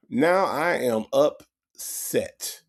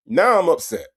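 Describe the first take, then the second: First: Slow "Now I am upset" with AM leaned on; slow, stressed repeat. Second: Said in the usual way. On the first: Shown as a demonstration. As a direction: spell out "Now I am upset" slowly. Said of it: "repeats it slower". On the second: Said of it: "repeats his complaint".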